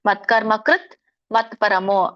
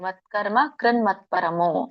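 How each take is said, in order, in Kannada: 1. ಪದಗಳು ಬೇರೆಬೇರೆಯಾಗಿವೆ, t ಶಬ್ದದಲ್ಲಿ ಕೊನೆಯಾಗುತ್ತದೆ. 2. ಪದಗಳು ಸೇರಿವೆ, n ಶಬ್ದದಲ್ಲಿ ಕೊನೆಯಾಗುತ್ತದೆ. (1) "ಇದನ್ನ ಬಿಡಿಸಿದಾಗ ಮತ್ಕರ್ಮ ಕೃತ್ ಮತ್ಪರಮಃ ಅಂತ ಆಗತ್ತೆ" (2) "ಕೂಡಿ ಹೇಳ್ತೀನ ಅಂತಂದ್ರೆ ಕೂಡಿ ಹೇಳಿ"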